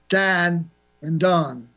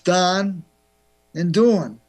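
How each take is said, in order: First: It is said in a Chicago accent. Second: It is said in a New York accent. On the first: "In Chicago, it's" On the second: "In New York, it's"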